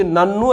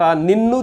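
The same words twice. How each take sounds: First: నన్ను said alone, slightly rising; the word నన్ను. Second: నిన్ను said alone, slightly rising; the word నిన్ను. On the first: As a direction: offer నన్ను as the replacement word. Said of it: "అని పెట్టుకోండి". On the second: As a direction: set apart the word నిన్ను as the one to replace. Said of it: "తీసి". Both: Shown as a demonstration.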